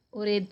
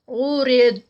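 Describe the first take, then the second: First: اورید with breath escaping after the final د; wrong way: let air out at the end of اورید; wrong breathy ending. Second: ارید closed firmly, no qalqala, no breath; correct stop demo. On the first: Teacher showing students the wrong breathy ارید. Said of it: "یہ والی آواز بھی نہیں آئے گی". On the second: Teacher showing the correct ارید stop. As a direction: stop ارید cleanly on the heavy dad. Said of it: "اس کا کلکلا نہیں ہوگا". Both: Shown as a demonstration.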